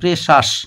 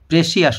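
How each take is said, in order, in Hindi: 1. यह दो अक्षरों में बोला जाता है, presh-us। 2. यह तीन अक्षरों में बोला जाता है, pre-see-us। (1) "উচ্চারণটা হবে" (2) "প্রেসিয়াস নয়"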